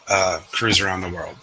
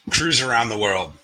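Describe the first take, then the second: First: Said in the usual way. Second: Poem title read aloud. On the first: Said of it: "So here we go". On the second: Shown as a demonstration. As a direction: open the poem with a measured, deliberate title. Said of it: "All right, let's do this".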